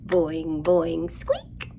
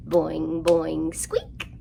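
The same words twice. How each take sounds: The two takes are said the same way.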